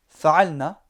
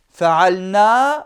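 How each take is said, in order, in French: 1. La voyelle finale est gardée courte. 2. La voyelle finale est prolongée. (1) "sans la prolongation" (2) "de bien mettre le alif"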